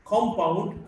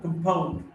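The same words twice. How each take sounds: First: "compound" as COM-pound; stress on first syllable. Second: "compound" as com-POUND; weak start, strong POUND in "compound"; stress on second syllable. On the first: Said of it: "stressed in the first syllable". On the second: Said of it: "stressed in the second syllable". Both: Shown as a demonstration.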